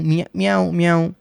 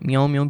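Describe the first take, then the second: First: म्याऊं म्याऊं said as a light cat meow, a little higher; cat meow imitation. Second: Said in the usual way. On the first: Shown as a demonstration. Teacher imitates a cat's meow for students, lightly meowing. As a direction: mew it like a cat for the class. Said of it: "कौन सी आवाज़ें हो सकती हैं?". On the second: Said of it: "बिल्ली की आवाज़ है".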